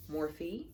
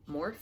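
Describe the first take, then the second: First: "Morphe" said MOR-fee, rising; "Morphe" in two syllables, ending like fee; two-syllable pronunciation. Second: "Morphe" said as one syllable, like morph; "Morphe" rhymed with dwarf, questioning; one-syllable pronunciation. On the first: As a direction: say "Morphe" with a final ee, unsure. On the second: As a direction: say "Morphe" with a silent final e. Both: Shown as a demonstration. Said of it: "Not sure how you pronounce it".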